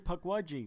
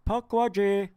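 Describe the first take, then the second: First: It is said in the speaker's own plain accent. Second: It is said in an imitated East Indian accent. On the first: "But it's really Pukwudgie, maybe" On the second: "It sounds like the guy actually has an Indian, East Indian accent"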